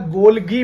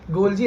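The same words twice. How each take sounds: First: गोल्गी said with a hard "g"; hard-g pronunciation. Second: गोल्जी said with a "j" sound; soft-g pronunciation. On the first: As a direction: say गोल्गी with "ghee"-like "gee" at the end. (गोल्गी में "ग" का उच्चारण) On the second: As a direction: say गोल्जी with "jee" at the end. (गोल्जी में "ज" का उच्चारण) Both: Shown as a demonstration. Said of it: "या गोल्गी भी बोल देते हैं".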